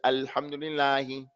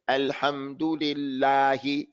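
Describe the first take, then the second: First: The vowels are flattened with little mouth movement. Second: The vowels are fully open and clearly shaped. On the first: The speaker calls it wrong. "He says Alhamdulillahi. He doesn't open up his mouth for the fatah" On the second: The speaker calls it right. "He doesn't say Alhamdulillahi"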